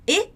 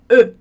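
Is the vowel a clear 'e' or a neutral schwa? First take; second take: clear e; schwa. First: The vowel is a clear, open 'e' sound. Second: The vowel is a neutral, inward schwa sound. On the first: The speaker calls it wrong. "Ela não tem o som E" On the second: The speaker calls it right. "ela tem o som E"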